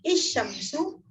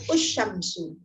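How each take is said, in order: First: The word begins with an i vowel. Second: The word begins with a u vowel. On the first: "tidak bisa dibaca I" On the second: "tidak bisa dibaca U"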